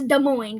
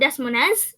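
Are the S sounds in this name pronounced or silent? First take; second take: silent; pronounced. First: The S sounds in both words are silent. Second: The S sounds in both words are pronounced. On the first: The speaker calls it right. "the S is in both words is silent" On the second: The speaker calls it wrong. "It's not Des Moines"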